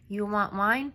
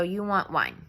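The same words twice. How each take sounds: First: "You want wine?" ending with a rising tune; rising question. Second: "You want wine?" with a falling tune, not a question; flat statement. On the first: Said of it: "he doesn't ask it as a question first". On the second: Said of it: "Like, solid face". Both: Shown as a demonstration.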